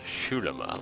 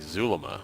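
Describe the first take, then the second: First: The name begins with an 'sh' sound. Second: The name begins with a 'z' sound. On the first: "like an S H" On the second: "with a Z"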